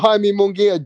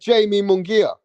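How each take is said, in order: First: The first name is not said like 'Jamie'. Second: The first name sounds like the English 'Jamie'. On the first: The speaker calls it right. "I used to call Jaime Munguia" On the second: The speaker calls it wrong. "I used to call him Jamie Munguia"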